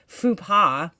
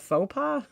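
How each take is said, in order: First: The first vowel sounds like 'oo'. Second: The first vowel sounds like 'oh'. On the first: The speaker calls it wrong. "it was just her New York accent" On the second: The speaker calls it right. "You mean a faux pas?"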